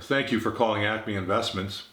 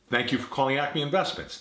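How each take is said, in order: First: It sounds flat and somewhat uninterested. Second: It sounds warm, attentive and engaged. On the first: The caller does not matter much to the speaker. The speaker calls it wrong. "there's a lack of interest and attention" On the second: The speaker is attentive to the caller. The speaker calls it right. "By contrast"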